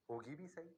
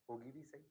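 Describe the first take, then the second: No difference in how they are said.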